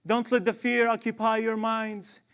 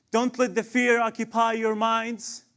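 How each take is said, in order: Both takes have the same delivery.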